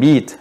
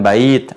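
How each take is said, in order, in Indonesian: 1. Vokalnya adalah satu 'e' panjang. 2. Vokalnya adalah diftong 'ai'. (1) "di slangnya mengatakan beat" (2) "Kita katakan bait, artinya rumah"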